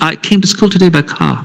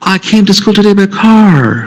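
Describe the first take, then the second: First: It is spoken in a British English accent. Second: It is spoken in an American English accent. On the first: "if a Britisher normally will say" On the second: "An American will say that"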